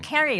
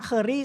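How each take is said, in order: First: The first vowel sounds like 'care'. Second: The first vowel sounds like 'cur'. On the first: The speaker calls it right. "actually it's pronounced as Carrie" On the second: The speaker calls it wrong. "ชื่ออะไรคะ Curry ใช่ไหม"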